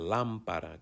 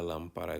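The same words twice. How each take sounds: First: The stress falls on the first syllable. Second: The stress falls on a later syllable. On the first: The speaker calls it right. "Notice the accent on A" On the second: The speaker calls it wrong. "I didn't say toca la lámpara grande"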